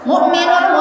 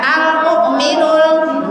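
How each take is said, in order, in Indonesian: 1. Kata itu langsung dimulai, tanpa 'al' di awal. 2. Kata itu dimulai dengan bunyi 'al' yang terdengar. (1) "Jangan mukminul muhaiminul, jangan begitu Bu ya" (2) "Pakai al mukminul gitu ya Bu"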